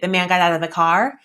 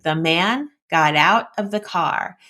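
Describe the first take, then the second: First: It is run together with no phrase breaks. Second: It is split into subject and action phrases. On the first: The speaker calls it wrong. "which is no phrasing at all" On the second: The speaker calls it right. "the subject phrase and the predicate or action phrase"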